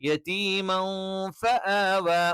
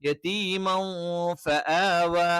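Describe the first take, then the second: Both takes have the same delivery.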